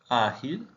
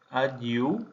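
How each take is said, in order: First: Said in the usual way. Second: Portuguese "Ágil", g like zh, l like u; Portuguese pronunciation. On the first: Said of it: "Ágil /axil/". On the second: Shown as a demonstration. Teacher models the Portuguese word, g as zh and l as u. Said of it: "Ágil /aɟiu/ vs /axil/".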